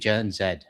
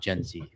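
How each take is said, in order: First: The letter is said as 'zed'. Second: The letter is said as 'zee'. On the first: This is the Canadian way to say it. The speaker calls it right. "It should be Gen Z" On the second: This is the usual American way to say it. The speaker calls it wrong. "not Gen Z"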